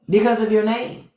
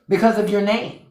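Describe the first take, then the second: No difference in how they are said.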